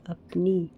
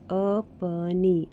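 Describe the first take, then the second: First: Said in the usual way. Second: अपनी said very slowly, syllable by syllable; teacher sounding out अपनी for children. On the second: Shown as a demonstration. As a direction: draw out अपनी so each sound is clear. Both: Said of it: "जैसे कि ये".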